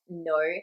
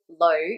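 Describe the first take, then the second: First: The word begins with an N sound. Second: The word begins with an L sound. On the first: This is the formal pronunciation. "The formal correct pronunciation of no has the N sound" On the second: This is the everyday pronunciation. "you're more likely to hear them say lo"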